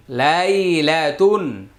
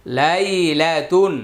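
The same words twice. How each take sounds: The two takes are said the same way.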